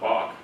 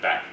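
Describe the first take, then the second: First: The vowel is an 'o' as in hot. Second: The vowel is an 'a' as in cat. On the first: The speaker calls it wrong. "not bok" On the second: The speaker calls it right. "Yep, back"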